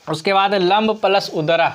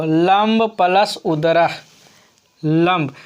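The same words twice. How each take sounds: First: Said in the usual way. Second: Teacher reading लंब plus उदरा slowly, each part apart; slow, spelled-out. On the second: Shown as a demonstration. Teacher to students, repeating the sum slowly. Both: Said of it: "क्या बोलेंगे इसको?".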